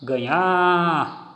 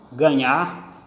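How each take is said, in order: First: Ganhar called with the final NHAR drawn out; calling out. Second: Said in the usual way. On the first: Shown as a demonstration. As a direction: hold the last syllable of ganhar like a call. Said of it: "tiveram a sua tonicidade". (chamando ganhar, com a última sílaba alongada) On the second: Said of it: "na última sílaba".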